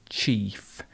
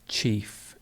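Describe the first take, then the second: Both takes have the same delivery.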